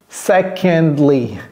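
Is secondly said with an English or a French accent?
English. It is said with an English pronunciation. The speaker calls it right.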